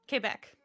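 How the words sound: It is pronounced with a French accent. The speaker calls it right. "it's French"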